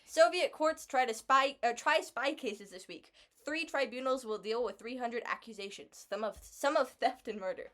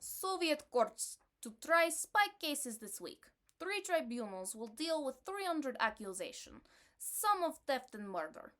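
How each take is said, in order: First: English accent. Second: Russian accent. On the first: Rereading the headline so the listener understands, in a mild English accent. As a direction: read it back in a plain, careful English accent. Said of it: "In, in a more English accent". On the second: Reading an old headline to her co-host, in a mild Russian accent. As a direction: read the Soviet news in a modest Russian accent. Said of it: "my Russian accent is". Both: Shown as a demonstration.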